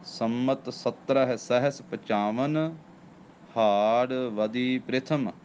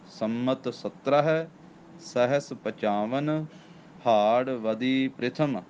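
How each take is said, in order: Both takes have the same delivery.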